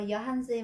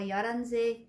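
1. Âm h được phát âm rõ ràng. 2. Âm h bị yếu đi hoặc bị lược bỏ. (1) "Vì sao cô không đọc là giờ hành xe" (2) "H có thể đọc nhẹ đi hoặc là đọc lược luôn"

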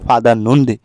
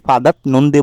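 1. দ্বিতীয় শব্দের আগে কোনো 't' ধ্বনি শোনা যায় না। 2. দ্বিতীয় শব্দের আগে একটি 't' ধ্বনি শোনা যায়। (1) "আমি বলছি ফাদা নন্দে" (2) "ফাদাত নন্দে বলি নাই"

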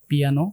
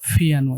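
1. প্রথম ধ্বনিটি সাধারণ, অল্পপ্রাণ p। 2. প্রথম ধ্বনিটি জোরালো মহাপ্রাণ ph। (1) "এখানে আমরা বলি পিয়ানো" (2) "ফিয়ানো এভাবে উচ্চারণ করবেন"

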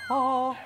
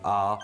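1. 이 모음은 높은 음으로 발음해요. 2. 이 모음은 낮은 음으로 발음해요. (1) "낮고 높은 소리죠" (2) "낮고 높은 소리죠"

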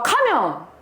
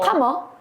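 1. 무시하고 털어내는 듯한 말투로 말해요. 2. 가볍게 묻는 듯한 말투로 말해요. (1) "이러면은 어쩌라고 이게 되고" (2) "이렇게 하면은 그러면? 이게 되는 거예요"

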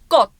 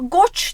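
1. Kelime t sesiyle bitiyor. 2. Kelime ch sesiyle bitiyor. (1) "Ç sesi sona geldiği zaman ç diye okunmuyordu" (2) "Ama goç demiyoruz"

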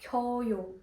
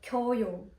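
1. Обидва голосні зливаються в один склад. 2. Обидва голосні зливаються в один склад.

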